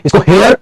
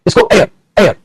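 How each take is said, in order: First: "हेयर" opening on a clear h; H sounded. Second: "एयर" opening on the bare vowel; silent H. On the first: Teacher contrasts two words for students, sounding the h in "हेयर". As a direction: say "हेयर" like hair, h pronounced. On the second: Teacher contrasts two words for students, no h in "एयर". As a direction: say "एयर" like air, dropping the h. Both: Shown as a demonstration. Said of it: "देखो दोनों की pronunciation में".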